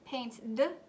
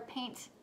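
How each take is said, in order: First: The ending is a voiced 'd' sound. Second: The ending is a voiceless 't' sound.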